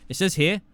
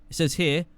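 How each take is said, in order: No difference in how they are said.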